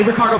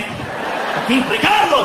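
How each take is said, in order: First: Said in the usual way. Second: High, dramatic swooping Spanish name; telenovela actor. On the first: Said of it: "I want you to sound like". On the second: Shown as a demonstration. Comic coaches soldier to sound like novelas, high dramatic delivery. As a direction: roll out "Ricardo" like a soap heartthrob. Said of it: "sound like you're in one of those novelas".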